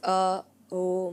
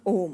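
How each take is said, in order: First: Om is drawn out through separate A-U-M sounds. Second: Om is said as one short syllable. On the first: The speaker calls it right. "तीन levels होते हैं ओम के। ... It's a ओम" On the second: The speaker calls it wrong. "It's not ओम"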